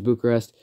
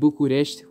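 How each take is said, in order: First: The name is pronounced the English way. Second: The name is pronounced the Romanian way. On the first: "and then there's Bucharest" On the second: "which is the Romanian way to pronounce it"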